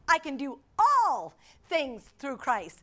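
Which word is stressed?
all. The stress falls on the word "all".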